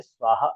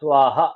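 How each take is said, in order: First: स्वाहा ending in a light ha echo; visarga sounding. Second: स्वाहा with a breathy ha echo at the end; visarga sounding. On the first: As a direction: lightly breathe out the final ha. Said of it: "हा तो नहीं है". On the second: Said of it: "लेकिन देखिए स्वाहा". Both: Shown as a demonstration.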